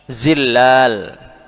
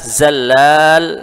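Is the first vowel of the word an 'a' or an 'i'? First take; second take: i; a. First: The first syllable has the vowel 'i'. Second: The first syllable has the vowel 'a'. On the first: The speaker calls it right. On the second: The speaker calls it wrong.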